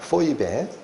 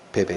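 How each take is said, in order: First: The name is said as three syllables, po-i-be. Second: The name is said as two syllables, be-be. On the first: "헬라어로 그대로 발음하면 포이베라고 발음된다" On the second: "우리말로는 베베"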